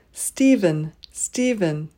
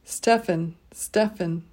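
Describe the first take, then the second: First: "Stephen" said STEE-vən; "Stephen" as STEE-vən, stressed first; usual pronunciation. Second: "Stefan" said STEF-ən; "Stefan" as STEF-ən, stressed first; rare pronunciation. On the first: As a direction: say "Stephen" with a long EE and a V. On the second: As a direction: say "Stefan" with a short E and an F. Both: Shown as a demonstration. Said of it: "Or on rare occasion".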